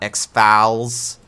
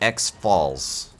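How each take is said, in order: First: It is not said as letter X plus falls. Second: It is said as letter X plus falls. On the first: The speaker calls it wrong. "it is not X-Falls" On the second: The speaker calls it right. "So X, like the platform ... and Falls, like the Niagara Falls"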